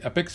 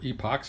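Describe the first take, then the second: First: The final syllable sounds like 'ick'. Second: The final syllable sounds like 'ock'. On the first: "however you want to say it" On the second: "however you want to say it"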